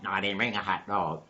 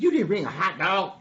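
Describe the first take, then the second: First: Lower, softer deadpan reply; dog denying. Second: Higher-pitched questioning voice; donkey asking. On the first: Dog answers donkey's food question, low subdued denial. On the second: Donkey quizzes dog about food, higher questioning voice. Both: Acted.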